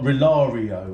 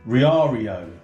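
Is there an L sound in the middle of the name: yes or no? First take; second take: yes; no. First: The name is said with an L sound inside. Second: The name is said without any L sound. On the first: The speaker calls it wrong. "Not Rilario or Rialio or whatever I was saying before" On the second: The speaker calls it right. "It's actually an I. It's R I A A R I O"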